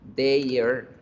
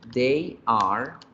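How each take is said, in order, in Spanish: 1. Se acorta en una sola sílaba contraída. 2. Se pronuncian dos palabras completas por separado.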